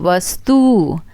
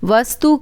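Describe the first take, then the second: First: The final vowel is long. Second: The final vowel is short. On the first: The speaker calls it wrong. "छोटा ऊ का बड़ा ऊ" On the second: The speaker calls it right. "छोटा ऊ का बड़ा ऊ"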